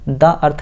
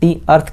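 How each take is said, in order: First: 'The' is said with a short 'uh' vowel. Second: 'The' is said with a long 'ee' vowel. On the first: The speaker calls it wrong. "द earth नहीं कहा" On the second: The speaker calls it right. "यहाँ पे हमने दी अर्थ कहा"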